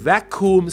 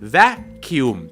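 First: The second syllable has a plain 'koom' sound. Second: The second syllable has a 'kyum' sound.

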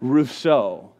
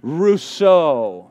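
First: It is said plainly, with little energy. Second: It is said with lively, flamboyant energy.

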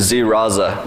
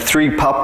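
First: The name begins with a 'z' sound. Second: The name begins with a 'th' sound. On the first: The speaker calls it right. "a Russian guy came out of the audience to go, oh, his name is Z Raza" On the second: The speaker calls it wrong. "I couldn't pronounce his name, I was saying Three Papa"

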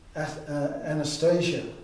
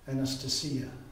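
First: It is said with an English pronunciation. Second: It is said with a Greek pronunciation.

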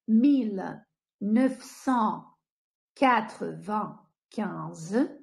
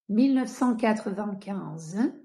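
First: It is said at a slow pace. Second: It is said at a faster pace.

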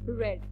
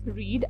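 First: The vowel is a short 'e' sound. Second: The vowel is a long 'ee' sound. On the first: It is the past or past participle form. "Second and third form are pronounced as आर ई डी" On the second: It is the present form of the verb. "First form is pronounced as रीड"

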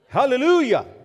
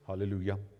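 First: It is said loudly with lively energy. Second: It is said quietly with subdued energy. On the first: The speaker praises with open exuberance. "Our Pentecostal friends would say" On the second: The speaker praises in a reserved way. "so we just say"

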